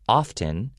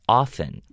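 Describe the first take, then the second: First: The T in the middle is pronounced. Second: The T in the middle is silent. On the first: "instead of often" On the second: "we go often. We make it sound like O F F E N"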